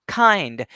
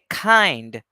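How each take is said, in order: First: The first k has a strong puff of air. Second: The first k has a strong puff of air.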